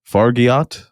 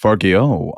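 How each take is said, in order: First: "Fargiat" with a sounded final t, questioning rise; unsure pronunciation. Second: "Fargiot" with a silent t, ending in "oh"; corrected pronunciation. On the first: Host unsure of the French director's surname, "Fargiat" ending in a t. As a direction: try "Fargiat" tentatively, hard t at the end. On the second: Host repeats co-host's correction, "Fargiot" ending in an oh sound. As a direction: settle on "Fargiot", falling, final vowel open as oh. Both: Real, not acted. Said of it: "I hope I'm saying that correctly".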